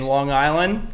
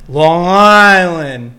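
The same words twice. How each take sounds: First: Said in the usual way. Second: Put-on loud, long-stretched Long Island accent; hammed-up Long Island accent. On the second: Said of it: "That was really good".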